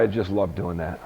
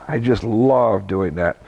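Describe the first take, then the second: First: Much lower and softer, I just love doing that as a dreamy sigh; softer dreamy aside. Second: Slow, with love leaned on; stress on love. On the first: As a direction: murmur it to yourself, savouring. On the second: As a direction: stretch out love and savour it. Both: Real, not acted.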